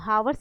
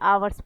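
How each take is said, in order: First: The word begins with an audible h sound. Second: The word begins with a vowel, h silent. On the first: The speaker calls it wrong. "इसको हावर्स नहीं पढ़ते हैं" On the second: The speaker calls it right. "आवर्स पढ़ते हैं, यहाँ पर एच silent होता है"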